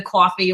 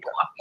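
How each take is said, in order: First: Said in the usual way. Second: Coffee said with a light New Jersey accent, caw-fee; a quick playful Jersey coffee. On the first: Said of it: "let me say the coffee". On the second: Shown as a demonstration. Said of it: "with this, uh, Jersey accent".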